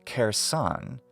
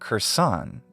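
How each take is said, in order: First: The vowel before the R is full. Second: The vowel before the R is reduced. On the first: The speaker calls it wrong. "instead of Kherson" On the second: The speaker calls it right. "saying Kherson is more natural for us"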